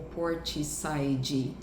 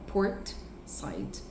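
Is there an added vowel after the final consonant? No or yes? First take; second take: yes; no. First: An extra 'ee' vowel follows the final consonant. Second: The final consonant ends dry, with no vowel. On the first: The speaker calls it wrong. "Você não vai falar porti ou portside" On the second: The speaker calls it right. "Seco no final"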